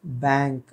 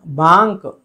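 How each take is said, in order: First: बैंक with English "bank" vowel; softer, low-key "baink" for बैंक; correct ai vowel. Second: बांक said as "baank"; wrong aa vowel. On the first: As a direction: use æ in बैंक. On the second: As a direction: open aa in बांक. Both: Shown as a demonstration. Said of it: "बांक गलत है".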